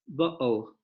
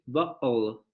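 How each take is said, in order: Both takes have the same delivery.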